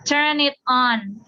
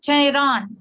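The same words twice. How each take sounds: First: The words are said separately, without linking. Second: The words are linked smoothly into one unit.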